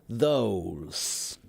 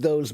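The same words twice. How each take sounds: First: It is said slowly, ending more like S. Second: It is said quickly, ending more like Z. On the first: "if you say it slowly, those, there's that's an S" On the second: "when we say it quickly, it feels almost more like a Z"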